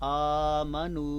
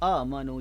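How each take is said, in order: First: The voice is held smooth and even. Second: The voice is pushed out with a jerk. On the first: The speaker calls it right. "आवाज़ को सीधा रखें" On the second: The speaker calls it wrong. "झटका दिया जाता है"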